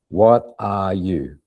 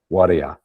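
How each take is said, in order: First: Every word is said fully and carefully. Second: The words are reduced and run together.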